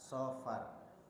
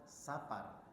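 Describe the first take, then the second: First: The first s is a heavy, emphatic s. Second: The first s is a light, plain s. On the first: It names the month. The speaker calls it right. "Aslinya kalau harus mengucapkannya itu pakai sod" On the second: It means a journey. The speaker calls it wrong. "Jadi bukan safar"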